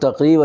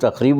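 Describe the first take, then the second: First: A deep q sound comes before the r. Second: A raspy kh sound comes before the r. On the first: The speaker calls it right. "अच्छा खासा लफ्ज़ है" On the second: The speaker calls it wrong. "उसको खे इस्तेमाल करके"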